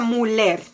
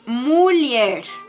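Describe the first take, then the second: First: The middle consonant is a plain L. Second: The middle consonant is an L-Y sound. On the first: The speaker calls it wrong. "no se pronuncia muller" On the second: The speaker calls it right. "la H al lado de la L le da la pronunciación de I"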